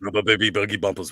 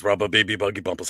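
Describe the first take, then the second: First: Fast vocal warmup; fast tongue twister warmup. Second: Fast vocal warmup repeat; fast tongue twister warmup. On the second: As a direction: rattle it off quickly. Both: Shown as a demonstration. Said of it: "Gotta get that announcer voice going".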